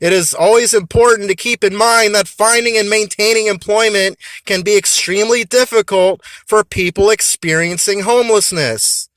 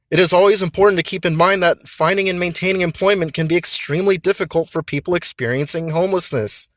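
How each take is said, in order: First: It is said loudly. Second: It is said at normal volume.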